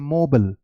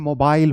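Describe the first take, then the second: First: It is said with an American accent. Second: It is said with a British accent.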